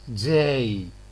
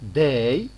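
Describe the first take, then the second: First: The first consonant has a slow, hissing release. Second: The first consonant is a plain stop. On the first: "it's pronounced as day" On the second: "instead of saying day"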